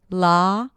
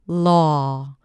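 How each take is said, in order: First: The vowel is an open ah with relaxed lips. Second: The vowel is an aw with slightly rounded lips. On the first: "the ah as in father, if you totally relax your lips" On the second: "In the second one, I rounded the lips just a bit"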